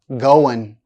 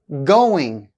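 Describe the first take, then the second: First: The word ends with a plain n sound. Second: The word ends with an ng sound.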